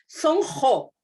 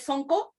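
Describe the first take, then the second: First: The middle consonant is a throaty j sound. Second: The middle consonant is a hard k sound. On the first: The speaker calls it right. "la palabra quechua se pronuncia como G, la Q" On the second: The speaker calls it wrong. "no se dice sonco"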